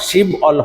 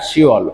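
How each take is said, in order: First: A b sound is heard before the second syllable. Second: No consonant is heard before the second syllable. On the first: The speaker calls it wrong. "এখানেও শিব অল হবে না" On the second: The speaker calls it right. "উচ্চারণ হবে শিওল"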